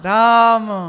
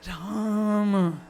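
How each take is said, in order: First: It is said with joy and delight. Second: It is sighed out with longing.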